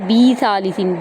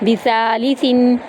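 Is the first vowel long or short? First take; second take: long; short. First: The first vowel is drawn out long. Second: The first vowel is kept short. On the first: The speaker calls it wrong. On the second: The speaker calls it right.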